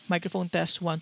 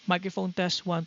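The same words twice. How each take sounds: First: Some fan noise is heard behind the voice. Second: Little fan noise is heard behind the voice. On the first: "we have the noise gate set to twenty-five percent" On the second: "fifty percent noise gate"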